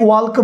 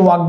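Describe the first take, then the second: First: ওয়ালক with the L fully sounded; L pronounced. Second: ওয়াক with no L sound; silent L. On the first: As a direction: say ওয়ালক, voicing the L before the K. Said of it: "silent letter". (ওয়ালক-এ এল উচ্চারণ করে) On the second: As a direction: say ওয়াক, going from the vowel straight to K. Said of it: "আমরা এটাকে বলি ওয়াক". (ওয়াক-এ এল অনুচ্চারিত রেখে) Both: Shown as a demonstration.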